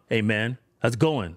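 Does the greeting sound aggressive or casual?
aggressive. The greeting sounds hostile and confrontational. The speaker wants to fight. The speaker calls it wrong. "That can mean I want to fight"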